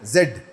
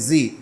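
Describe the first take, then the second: First: The letter is said as zed. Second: The letter is said as zee. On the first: This is how we usually say it. "हम लोग जो जेड कहते हैं ना" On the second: This is how the term is pronounced. "उसको जी pronounce करते हैं"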